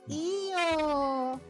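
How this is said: It sounds wistful, accepting but disappointed. I want it, but not getting it now is okay. "That feels like I want it, but it's okay to not get it now"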